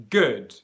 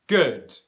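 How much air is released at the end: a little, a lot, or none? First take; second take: a little; a little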